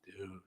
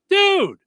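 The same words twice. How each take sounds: First: It is said in a sad tone. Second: It is said in an excited tone.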